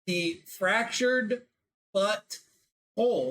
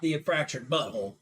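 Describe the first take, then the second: First: The stress falls on whole, apart from but. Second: The stress falls on but, run together as one. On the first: It means broken yet still complete. The speaker calls it right. "the inflection there is very important" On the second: It sounds like a crude joke word. The speaker calls it wrong.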